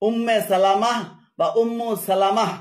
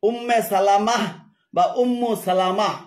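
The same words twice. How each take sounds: Both takes have the same delivery.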